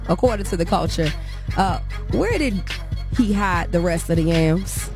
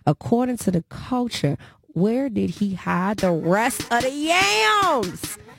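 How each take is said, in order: First: It is said at normal speed. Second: It is said slowly.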